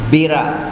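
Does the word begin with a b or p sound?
b. The word begins with a b sound.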